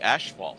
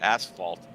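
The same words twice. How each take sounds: First: The word is said the Canadian way. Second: The word is said the standard way. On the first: The speaker calls it wrong. "we say asphalt, which is actually wrong" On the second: The speaker calls it right. "so it's asphalt assault"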